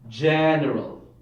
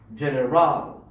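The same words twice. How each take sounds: First: The stress is on the first syllable. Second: The stress is on the third syllable. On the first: The speaker calls it right. "maybe the first syllable" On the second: The speaker calls it wrong. "if the stress is on the third syllable"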